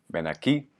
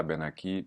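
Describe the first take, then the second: First: Aquí said with the stress on the final í; stress on last syllable. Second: Aquí said wrongly, stress pulled off the final í. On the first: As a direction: push the weight onto the end of aquí. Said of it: "à chaque fois, on accentue le «i»". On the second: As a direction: misplace the stress in aquí on purpose. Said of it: "Et pas". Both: Shown as a demonstration.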